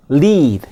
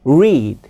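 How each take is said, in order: First: "lead" begun with tongue tip on the ridge; "lead" with a clear L, not R; English L sound. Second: "read" begun with an English R, tongue pulled back; "read" with a clear R, not L; English R sound. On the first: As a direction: say "lead" low and falling with a clear L. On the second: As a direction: say "read" low and falling with a rounded R. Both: Shown as a demonstration. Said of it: "이게 영어의 R과 L예요".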